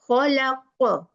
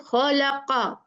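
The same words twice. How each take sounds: First: The final consonant ends with a brief echoing bounce. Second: The final consonant is followed by a full 'a' vowel. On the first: The speaker calls it right. "it should be khalaqa" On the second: The speaker calls it wrong. "They say khalaqa"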